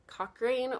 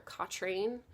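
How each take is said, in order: First: Cochrane said as COCK-rain; tentative Cochrane, "kok-rain"; first pronunciation option. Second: Cochrane said as COCK-train; tentative Cochrane, "kok-train"; alternative pronunciation. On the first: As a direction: say Cochrane with a clear k before the r. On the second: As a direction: say Cochrane with a tr sound in the middle. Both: Shown as a demonstration. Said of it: "so Cochrane or Cochrane".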